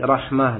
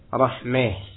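First: The vowel before final h is an open a. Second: The vowel before final h leans toward e.

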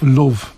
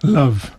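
First: It is said in a Liverpool accent. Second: It is said in a standard RP accent. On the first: "where I come from, in Liverpool, you say love" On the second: "RP, and you would say love"

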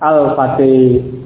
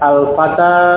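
First: The final vowel is a fronted e-like sound. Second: The final vowel is a plain open a. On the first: "Yang benar adalah al-hudi, al-fatih" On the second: "ini yang dibaca fathah dulu ya"

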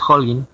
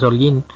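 First: The name is said with English pronunciation. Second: The name is said with Spanish pronunciation. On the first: The surname is of Saxon origin. "Si es sajón, pues es Holguín" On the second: The surname is of Latin origin.

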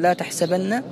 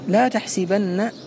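First: The vowel after the s is a. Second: The vowel after the s is i. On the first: The speaker calls it wrong. "ولم ينطق بها في هذه القضية في فتحها" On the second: The speaker calls it right. "نطق بها مكسوة السين"

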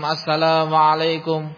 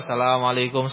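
First: The greeting is said clearly and pleasantly. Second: The greeting is mumbled too quietly to hear. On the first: The greeting is a sincere prayer for the family. The speaker calls it right. "dengan nada yang enak didengar, dengan nada yang terdengar" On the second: The greeting is said without care for anyone hearing it. The speaker calls it wrong. "sapa sing krungu"

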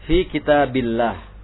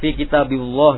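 First: The 'l' in 'billah' is light and thin. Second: The 'l' in 'billah' is heavy and thick. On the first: The speaker calls it right. "tarkik dibacanya" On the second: The speaker calls it wrong. "bukan tafkhim, bukan fi kitabillah"

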